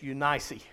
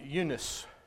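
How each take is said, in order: First: It is said in the English way. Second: It is said in the American way. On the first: "The English pronounce Eunice Eunice" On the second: "We pronounce it Eunice"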